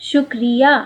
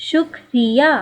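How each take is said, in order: Both takes have the same delivery.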